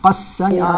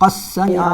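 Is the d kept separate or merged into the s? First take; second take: merged; merged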